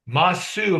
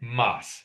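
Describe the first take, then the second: First: The final u vowel is pronounced. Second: The final u vowel is dropped. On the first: This sounds somewhat feminine. "if I pronounce that u, is somewhat of a feminine" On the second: This is the standard form for everyone. "we oftentimes slur it to say mas instead of masu"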